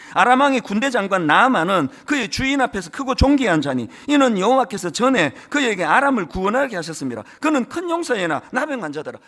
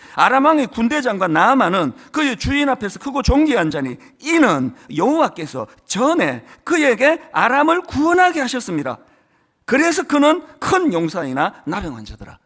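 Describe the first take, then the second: First: It is read flatly without any emphasis. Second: It is read with emphasis on key words.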